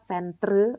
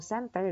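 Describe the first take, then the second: First: SENTRE ending in -tre as spelt; British spelling pronounced. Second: Said in the usual way. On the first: Shown as a demonstration. Teacher contrasts British spelling, centre sounded as -tre. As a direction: say SENTRE with R before the final vowel. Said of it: "metre kalau British". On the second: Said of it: "kalau American dia meter biasa".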